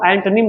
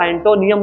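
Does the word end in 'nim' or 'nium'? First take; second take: nim; nium. First: The word ends with a short '-nim' sound. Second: The word ends with a '-nium' sound. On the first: The speaker calls it right. "इसको हम एंटोनिम बोलते हैं" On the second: The speaker calls it wrong. "बहुत से लोग इसको एंटोनियम बोलते हैं जो कि गलत है"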